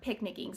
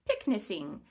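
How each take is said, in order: First: The middle consonant is a K sound. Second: The middle consonant is an S sound. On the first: The speaker calls it right. "To preserve the K sound" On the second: The speaker calls it wrong. "it's going to say picnicing, which is not what we want to say"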